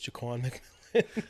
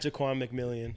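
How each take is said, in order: First: The surname ends in a plain 'millan' sound. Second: The surname ends with an added 'millian' sound. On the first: The speaker calls it right. "is Jaquan McMillan" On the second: The speaker calls it wrong. "not Jaquan McMillian"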